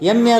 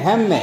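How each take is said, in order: First: The word starts directly with a vowel. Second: The word starts with a breathy h sound. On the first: The speaker calls it wrong. "ಎಮ್ಮೆ ಅಲ್ಲ" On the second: The speaker calls it right. "ಹಾ sound ಬರಬೇಕು"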